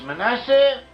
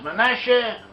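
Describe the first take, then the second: First: The middle consonant is an 's' sound. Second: The middle consonant is an 'sh' sound. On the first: "as we do in the English-speaking world" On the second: "modern Hebrew, it is pronounced as Manasseh"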